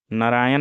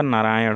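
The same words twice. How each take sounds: First: नारायण with short na and dental n; wrong pronunciation. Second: Said in the usual way. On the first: Shown as a demonstration. Teacher shows students the error, नारायण ending in न. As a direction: say नारायण as "naraayan". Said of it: "नहीं होगा". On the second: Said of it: "होगा".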